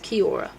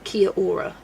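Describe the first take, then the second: First: The vowels run together into fewer syllables. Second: The vowels are split into extra separate syllables. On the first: The speaker calls it right. "it's Kiora. There's less syllables than you think" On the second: The speaker calls it wrong. "I see it written down and I'm like Kia Aura"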